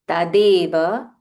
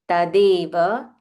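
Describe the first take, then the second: The two takes are said the same way.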